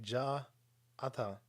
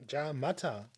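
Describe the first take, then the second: First: "Ja ata" said without the m, halting; wrong Japanese farewell. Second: "Ja mata" said as ja-ma-ta, Japanese style; Japanese farewell. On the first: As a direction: botch the Japanese goodbye as "Ja ata". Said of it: "that's not actually what they say". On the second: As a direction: say the Japanese goodbye "Ja mata" properly. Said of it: "They say". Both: Shown as a demonstration.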